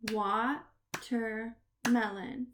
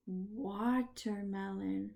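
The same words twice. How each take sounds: First: Watermelon slowly split into "wa", "ter", "melon"; syllable by syllable. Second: Said in the usual way. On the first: Shown as a demonstration. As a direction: clap out Watermelon with pauses between the parts. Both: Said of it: "we are gonna clap the syllable".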